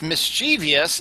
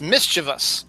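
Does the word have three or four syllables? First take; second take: four; three. First: It is said with an extra "-ee-" syllable. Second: It is said without the extra syllable. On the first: The speaker calls it wrong. "it's not pronounced mischievous" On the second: The speaker calls it right. "it's pronounced mischievous"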